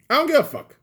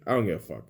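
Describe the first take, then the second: First: Much higher and louder, hurled out; defiant shout. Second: Said in the usual way. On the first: Real, not acted. To mainstream news viewers, a defiant yell. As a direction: yell it back at critics, fed up. Ranting repeat, shouted second take.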